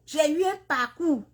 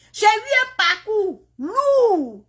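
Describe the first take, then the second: First: Said in the usual way. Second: Slow, high, wavering cry half laughing; real tears pushing through a laugh. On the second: Real, not acted. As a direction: let it break into a tearful laugh. Recounting her hard journey, tearful.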